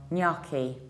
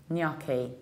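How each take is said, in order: No difference in how they are said.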